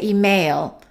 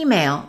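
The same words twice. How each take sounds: First: The stress is on the second syllable. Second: The stress is on the first syllable. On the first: The speaker calls it wrong. "Some people make a mistake and they say email" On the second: The speaker calls it right. "The first syllable is stressed"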